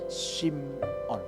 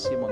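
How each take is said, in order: First: The name is said the Hebrew way. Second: The name is said the English way. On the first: "kalau bahasa Ibrani aslinya adalah Simon" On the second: "orang Inggris bilang Simon"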